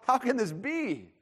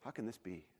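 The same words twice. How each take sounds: First: It is said in a joyful, positive tone. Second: It is said in a doubtful, negative tone.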